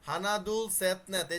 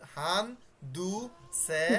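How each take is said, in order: First: The number words are said in their full forms. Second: The number words are said in shortened forms. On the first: These are the basic names of the numbers. "ওদের নাম হচ্ছে হানাদুল সেতনেত" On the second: This is the form used when counting things. "Practically ব্যবহার করব তখন কি হয়ে যাবে?"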